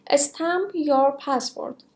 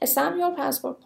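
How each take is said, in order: First: Drawn-out, word by word; very slow model phrase. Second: Said in the usual way. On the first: Shown as a demonstration. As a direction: stretch every word for the class.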